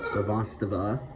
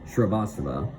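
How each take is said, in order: First: The name starts with a plain 'sa' sound. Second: The name starts with a 'shri' sound. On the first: The speaker calls it wrong. "no, it's Shrivastava" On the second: The speaker calls it right. "I got the pronunciation better"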